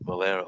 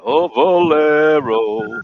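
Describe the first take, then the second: First: Said in the usual way. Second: "Oh, Valero" stretched very slowly, louder and higher; drawn-out Valero. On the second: Shown as a demonstration. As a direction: draw out "Oh, Valero" like tasting the word.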